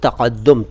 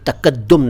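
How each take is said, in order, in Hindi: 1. इसकी शुरुआत गहरे, गले वाले q की आवाज़ से होती है। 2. इसकी शुरुआत सादे k की आवाज़ से होती है। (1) "क़ा क़ा क़ा" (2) "तकद्दुम नहीं"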